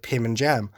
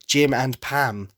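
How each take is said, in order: First: Names swapped as "Pim and Jam"; tongue slip. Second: "Jim and Pam" said slowly and carefully; careful correction. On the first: Naming the show's couple, slipping into "Pim and Jam". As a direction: trip over it and say "Pim and Jam". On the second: Correcting the slip on the couple's names, slow and careful. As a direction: fix the slip, slowly and deliberately. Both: Real, not acted. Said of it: "that was really hard for me to say".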